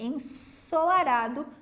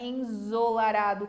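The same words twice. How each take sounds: First: The middle consonant is a voiceless s sound. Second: The middle consonant is a voiced z sound. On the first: The speaker calls it right. "é ensolarado com som de S" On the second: The speaker calls it wrong. "não é ensolarado com som de Z"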